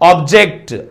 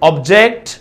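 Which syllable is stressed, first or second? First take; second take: first; second. First: The stress is on the first syllable. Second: The stress is on the second syllable. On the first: "first syllable" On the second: "second syllable పైన వస్తుంది verb కాబట్టి"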